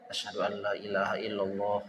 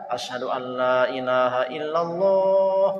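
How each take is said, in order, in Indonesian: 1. Diucapkan pelan, hampir dalam hati. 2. Diucapkan keras dan terbuka. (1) "sunnahnya pelan dulu dibaca dia" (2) "baru yang keduanya dia keraskan"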